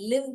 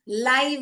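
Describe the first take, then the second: First: The vowel is short, as in 'it'. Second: The vowel is long, as in 'eye'. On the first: To dwell somewhere. "लिव भी पढ़ सकते हैं" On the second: Broadcast as it happens. "लाइव भी पढ़ सकते हैं"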